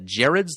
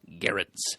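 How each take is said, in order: First: The name begins with a soft J-like G. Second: The name begins with a hard G sound. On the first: The speaker calls it wrong. "I always kind of assumed it was uh, Gerrards, you know, like Gerald but without the L" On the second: The speaker calls it right. "also without the soft G"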